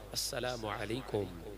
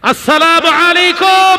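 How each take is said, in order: First: It is said at a normal volume. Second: It is said in a very loud voice.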